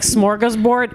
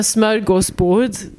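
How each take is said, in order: First: Smorgasbord with full American r sounds; American pronunciation. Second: Smörgåsbord with Swedish vowels and lilt; Swedish pronunciation. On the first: Retold or imitated. Host mimicking her guest, American pronunciation of Smorgasbord. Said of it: "That's how Americans say it". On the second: Shown as a demonstration. Host naming the meal she made, Swedish pronunciation of smörgåsbord. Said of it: "That's how we pronounce it in Swedish".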